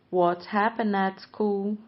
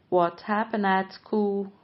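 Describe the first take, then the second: Both takes have the same delivery.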